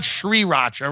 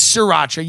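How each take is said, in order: First: "Sriracha" with a full "shr" and a rolled first r, shree-RAH-cha; wrong pronunciation. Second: "Sriracha" with no sh-r at the start, just r-AH-cha; corrected pronunciation. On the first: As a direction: say "Sriracha" with the sh-r at the start. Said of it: "It's Sriracha". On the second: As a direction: say "Sriracha" with the opening r swallowed. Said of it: "It's not Sriracha". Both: Shown as a demonstration.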